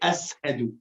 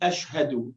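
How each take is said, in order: First: The middle consonant is an 's' sound. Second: The middle consonant is an 'sh' sound. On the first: The speaker calls it wrong. "he would say ashadu. His sheen was seen" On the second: The speaker calls it right. "he wouldn't say ashhadu"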